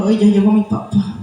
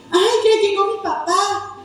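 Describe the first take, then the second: First: Put-on low, flat, let-down child greeting; glum greeting. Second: Put-on cheerful child greeting dad; happy welcome. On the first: Child resentful of tired dad, glum greeting. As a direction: say it with no joy, dad is home again. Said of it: "va a decir". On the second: Child glad dad is home, cheerful welcome. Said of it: "en vez de decir".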